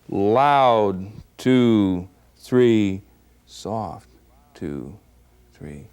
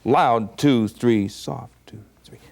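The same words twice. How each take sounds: First: The counting is slow and drawn out. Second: The counting is quick and brisk. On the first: "this is in slow motion" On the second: "So up-tempo, it would be like this"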